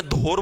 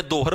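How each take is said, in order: First: दोहर said as "dor", no h sound; दोहर pronounced "dor"; without the h. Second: दोहर said "do-har", h clearly sounded. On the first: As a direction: say दोहर dropping the h, long o. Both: Shown as a demonstration. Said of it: "उसको बोलते हैं दोहर या दौर".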